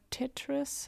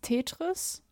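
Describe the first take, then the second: First: The word is pronounced in an English way. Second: The word is pronounced in a German way. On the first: The speaker calls it right. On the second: The speaker calls it wrong.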